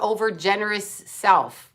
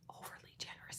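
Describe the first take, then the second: First: Said in the usual way. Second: Unvoiced whisper; whispered aside. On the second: Real, not acted. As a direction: whisper it as a quick correction.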